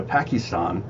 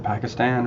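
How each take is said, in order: First: Pakistan with broad "ah" vowels; broad-A pronunciation. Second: Pakistan with short "a" as in "cat"; flat-A pronunciation. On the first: News host unsure how to say the country, Pakistan ending in "STAHN". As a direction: say Pakistan as "PAH-kee-STAHN". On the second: Host offering the other way to say it, Pakistan ending in "STAN". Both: Shown as a demonstration. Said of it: "or is it Pakistan?".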